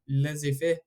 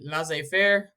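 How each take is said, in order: First: It is said with a French-sounding pronunciation. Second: It is said with an English-sounding pronunciation. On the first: "It's probably pronounced more like" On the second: "that's the way I was always taught to pronounce it"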